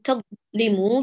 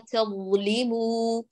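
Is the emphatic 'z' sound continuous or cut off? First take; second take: cut off; continuous. First: The emphatic 'z' sound is abruptly cut off. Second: The emphatic 'z' sound flows on continuously. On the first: The speaker calls it wrong. "لا نقول تظلموا بقطع صوت الضاء" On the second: The speaker calls it right. "ينبغي للصوت أن يجري جريان تام بإضعاف الاعتماد على المخرج، فنقول"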